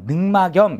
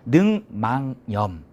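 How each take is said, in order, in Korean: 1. 가운데 음절은 k 소리로 끝납니다. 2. 가운데 음절은 ng 소리로 끝납니다. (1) "이렇게 읽지 않고" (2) "이렇게 읽어줍니다"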